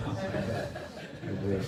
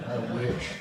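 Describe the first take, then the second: First: Laughing. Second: A louder, higher exclaimed wish; loud joking wish. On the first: Laughing at her own joke with friends, laughing. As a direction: say it through a real laugh. Repeats the wish while laughing. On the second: Joking to friends about being up late, loud exclaim. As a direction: blurt it out as a wistful joke. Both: Real, not acted.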